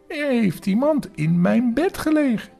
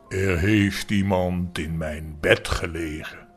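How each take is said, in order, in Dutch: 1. De stem is klein, licht en hoog. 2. De stem is groot, diep en zwaar. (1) "met zijn kleine stemmetje" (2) "met grote zware stem"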